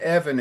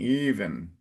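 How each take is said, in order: First: The first vowel is a short E. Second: The first vowel is a long, strong E. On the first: The speaker calls it wrong. "it's not Evan" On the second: The speaker calls it right. "a strong open E at the beginning"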